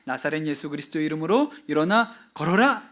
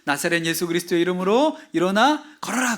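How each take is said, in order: First: It is said in a rather quiet voice. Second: It is said in a loud voice.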